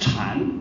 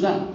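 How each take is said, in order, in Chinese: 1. 这个词的开头是 'ch' 音。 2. 这个词的开头是 'z' 音。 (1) "本来禅在中国的发音是禅" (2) "不是Zen"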